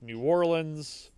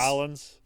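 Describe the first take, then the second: First: The name is said in full, several syllables. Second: The name is squeezed into two short syllables. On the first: This is how outsiders say it. The speaker calls it wrong. "So you pronounce that wrong" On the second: This is how locals say it. The speaker calls it right. "it's Nolans"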